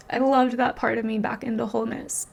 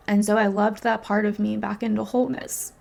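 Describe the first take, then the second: First: Tender repeat. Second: Said in the usual way. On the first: Real, not acted. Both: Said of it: "repeats it, laughing".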